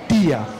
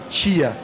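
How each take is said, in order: First: The first consonant is a plain 't'. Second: The first consonant sounds like 'ch'. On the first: The speaker calls it right. "esse T é o T só com o som do T" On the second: The speaker calls it wrong. "é um som de T C H"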